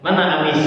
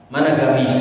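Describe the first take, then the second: First: Mana amis with qaf dropped, Egyptian style. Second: Mana gamis with a g-like ghin for qaf; Yemeni way. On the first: Teacher playing himself talking to Egyptians, qaf dropped. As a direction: ask for the robe like a Cairo local, amis. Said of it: "ngomong sama orang Mesir". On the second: Teacher playing himself talking to Yemenis, ghin for qaf. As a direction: ask for the robe like a Yemeni, gamis. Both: Shown as a demonstration.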